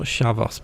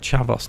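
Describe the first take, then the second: First: The word begins with a sh sound. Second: The word begins with a ch sound. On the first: The speaker calls it wrong. "not Shavos" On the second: The speaker calls it right. "I think it's pronounced Chavos"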